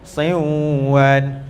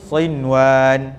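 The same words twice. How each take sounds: First: The n merges into the w with nasal hum. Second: The n is said clearly with no nasal hum. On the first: The speaker calls it wrong. "Dia tidak ada sinwan, bukan" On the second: The speaker calls it right. "Dia tiada dengung"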